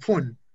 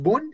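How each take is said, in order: First: The word starts with an F sound. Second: The word starts with a V sound. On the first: The speaker calls it right. "tiene el sonido de una F" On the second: The speaker calls it wrong. "no diríamos von"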